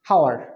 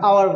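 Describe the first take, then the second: First: The word starts with an audible h sound. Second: The word starts with a vowel, no h. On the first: The speaker calls it wrong. "হাওয়ার বলি? কখনোই না" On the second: The speaker calls it right. "আমরা আওয়ার বলি কিন্তু"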